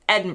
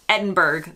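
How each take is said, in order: First: It is said the local way. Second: It is said in a clearly foreign way. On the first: The speaker calls it right. "It's actually Edinburgh" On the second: The speaker calls it wrong. "that's definitely wrong"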